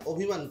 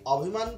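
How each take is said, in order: First: The first vowel is a closed 'o' sound. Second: The first vowel is an open 'aw' sound. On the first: The speaker calls it right. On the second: The speaker calls it wrong.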